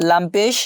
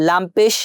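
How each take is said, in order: The two takes are said the same way.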